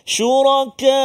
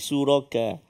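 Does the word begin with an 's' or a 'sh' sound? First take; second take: sh; s. First: The word begins with a sh sound. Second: The word begins with a plain s sound. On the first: The speaker calls it right. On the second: The speaker calls it wrong.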